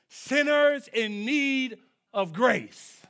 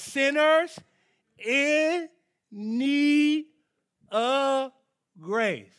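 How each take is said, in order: First: SINNERS IN NEED OF GRACE, drawn out and loud; emphatic preaching. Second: Loud, high, separated words dropping on the last. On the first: First take of the key phrase. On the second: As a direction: pause hard after each key word. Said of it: "I say it real slow". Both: Real, not acted.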